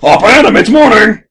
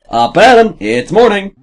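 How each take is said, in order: First: It is said very loudly. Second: It is said at a normal volume.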